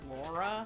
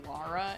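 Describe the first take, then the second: First: The first vowel is a rounded 'aw'. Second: The first vowel is a long, open 'ah'.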